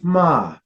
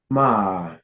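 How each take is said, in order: First: The pitch starts high and falls. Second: The pitch dips down, then rises. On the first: "you have your high falling tone" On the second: "your falling rising tone"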